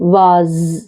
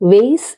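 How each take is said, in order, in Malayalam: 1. നീണ്ട 'ah' സ്വരം, z ശബ്ദത്തിൽ അവസാനിക്കുന്നു. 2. 'day' പോലുള്ള സ്വരം, s ശബ്ദത്തിൽ അവസാനിക്കുന്നു. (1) "ബ്രിട്ടീഷിൽ വാസ്" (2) "Vase in American"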